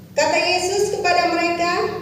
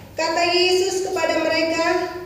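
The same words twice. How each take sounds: Both takes have the same delivery.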